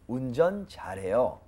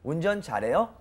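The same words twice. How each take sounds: First: The voice does not rise at the end. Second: The voice rises at the end. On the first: It states that someone drives well. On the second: It asks whether someone drives well.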